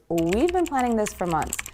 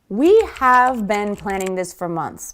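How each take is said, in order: First: 'We have' shrinks to 'we've' with a v sound. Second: 'We have' is said as two full words.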